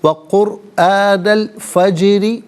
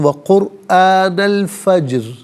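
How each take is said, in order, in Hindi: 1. र हल्का है और उसके बाद इ स्वर है। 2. र भारी है और उसके बाद कोई स्वर नहीं है। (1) "रॉ को बारीक करके पढ़ेंगे" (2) "यहाँ रुकेंगे तो"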